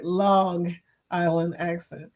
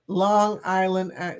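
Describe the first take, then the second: First: Long Island accent. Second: Said in the usual way. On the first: Shown as a demonstration. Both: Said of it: "some of my Long Island accent".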